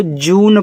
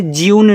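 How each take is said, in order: First: जून as "joon", no y-glide; correct pronunciation. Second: ज्यून with a y-glide after the j; wrong pronunciation. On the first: Teacher shows students how June is read, जून without a glide. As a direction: say जून with j going straight into oo. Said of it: "इसको जून पढ़ते हैं". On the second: Teacher shows students the reading to avoid, ज्यून with a y-glide. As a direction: say ज्यून as "jyoon", glide before the oo. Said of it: "ज्यून नहीं पढ़ोगे". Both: Shown as a demonstration.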